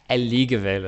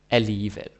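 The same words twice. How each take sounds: First: The G is pronounced as a hard G. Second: The G is silent or sounds like Y. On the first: The speaker calls it wrong. "some learners, they accidentally say uh, alligevel or something like that" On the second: The speaker calls it right. "G is either silent or it's pronounced like a Danish J or an English Y. Alligevel, right? That's how you do it"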